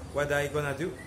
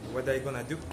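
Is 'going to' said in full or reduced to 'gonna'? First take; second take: Reduced; Reduced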